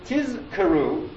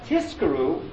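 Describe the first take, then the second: First: The consonant before the k is a voiced z. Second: The consonant before the k is a voiceless s. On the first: The speaker calls it right. "I have to be very careful to be lahatim sisazayin and to say tizkaru" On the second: The speaker calls it wrong. "and not to say it as tiskaru"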